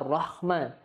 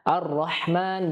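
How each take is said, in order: First: The h is a rough, scraping kh sound. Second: The h is a deep, breathy throat sound. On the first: The speaker calls it wrong. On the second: The speaker calls it right. "Ha juga jangan dibaca ha maupun kha"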